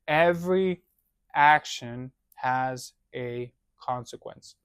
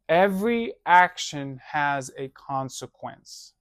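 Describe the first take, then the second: First: It is said slowly and deliberately. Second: It is said at a normal pace.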